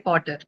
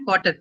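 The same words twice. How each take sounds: First: The vowel is said long. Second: The vowel is said short. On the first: The speaker calls it right. "You say potter" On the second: The speaker calls it wrong. "You don't say potter"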